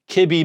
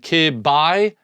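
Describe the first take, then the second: First: The second syllable sounds like 'bee'. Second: The second syllable sounds like 'bye'. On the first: "call it B" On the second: "rather than call it B I"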